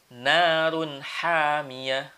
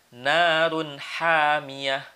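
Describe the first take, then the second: No difference in how they are said.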